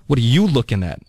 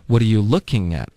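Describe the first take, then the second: First: "you" punched, as a challenge; stress on YOU. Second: "looking" carries the stress, a neutral question. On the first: Teacher demonstrating a challenge to someone staring, stress on "you". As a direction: hit "you" hard, confronting the onlooker. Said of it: "如果你把重音放在you上呢". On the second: Teacher demonstrating a curious question to a group, stress on "looking". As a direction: put the weight on "looking", as a simple question. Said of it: "把重音放在了". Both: Shown as a demonstration.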